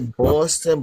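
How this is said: It is said in a New York accent.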